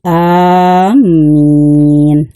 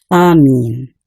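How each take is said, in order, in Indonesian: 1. Vokal pertama panjang dan m ganda. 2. Vokal pertama pendek dan m tunggal. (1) "alifnya dipanjangkan ya, dan mimnya bersyadah" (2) "Amin dibaca pendek"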